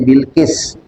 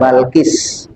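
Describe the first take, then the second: First: The first syllable has the vowel i. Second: The first syllable has the vowel a. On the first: "namanya Bilqis" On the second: "Ada yang baca Balkis"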